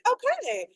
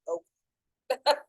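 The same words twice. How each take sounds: First: It is said in a bright, cheerful way. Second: It is said in a flat, curt way. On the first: Everything is fine and friendly. "if you put okay with an exclamation point, it's like" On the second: The writer seems upset with you. "If you put okay with a period, it's like, okay. Like, I feel like I'm in trouble"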